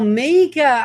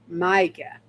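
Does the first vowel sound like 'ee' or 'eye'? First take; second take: ee; eye. First: The first vowel sounds like 'ee'. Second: The first vowel sounds like 'eye'. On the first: The speaker calls it right. "you pronounce the I in your name as an E" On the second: The speaker calls it wrong. "I pronounce the I"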